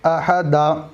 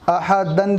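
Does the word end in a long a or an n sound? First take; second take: long a; n sound. First: The word ends with a long a vowel. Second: The word ends with an -an sound. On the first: The reader stops on this word. "बल्कि अहदा" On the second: The reading continues past this word. "अहदन पर कोई बंदा रुकना चाहे तो उसको अहदन नहीं पड़ेगा"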